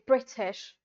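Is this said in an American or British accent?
British. It is said in a British accent. "a British guy will always say"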